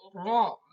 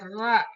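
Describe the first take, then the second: First: The r is thick with rounded open mouth. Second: The r is thin with a plain vowel. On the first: The speaker calls it right. "tapi ro" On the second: The speaker calls it wrong. "tidak ra"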